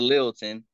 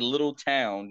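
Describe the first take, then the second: First: The name ends with a reduced 'ton' sound. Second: The name ends with a full 'town' sound. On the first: The speaker calls it right. "you say Littleton" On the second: The speaker calls it wrong. "You don't say little town"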